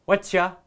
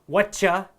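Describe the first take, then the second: Both takes have the same delivery.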